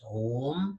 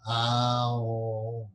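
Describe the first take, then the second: First: The word is said as one short syllable. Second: The word is drawn out as three syllables. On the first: The speaker calls it wrong. "It's not just Om" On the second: The speaker calls it right. "Om is actually a three-syllable word, A U M"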